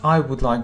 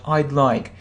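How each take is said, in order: First: The word 'would' is said in full. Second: The word 'would' is contracted to 'd'. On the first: The speaker calls it wrong. "So not I would like" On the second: The speaker calls it right. "we mostly use short forms"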